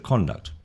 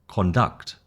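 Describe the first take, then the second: First: The stress is on the first syllable. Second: The stress is on the last syllable. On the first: It names a person's behaviour. "the word as a noun, it will be emphasis on the first syllable" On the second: It means to lead or direct something. "A verb"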